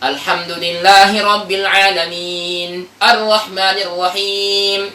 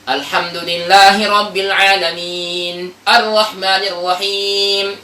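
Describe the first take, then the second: First: There is a brief stop after 'alamin'. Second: There is a brief stop after 'alamin'.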